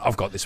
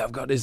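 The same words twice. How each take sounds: First: The tone is smug and off-putting. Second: The tone is warm and friendly. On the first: The speaker is showing off over someone else's set. The speaker calls it wrong. "if I say it like that, that's a bit dicky" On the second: The speaker is kindly sharing a record. The speaker calls it right. "You can say it really nice"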